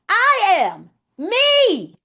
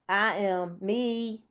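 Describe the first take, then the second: First: It is said with high, eager energy. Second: It is said with low, timid energy.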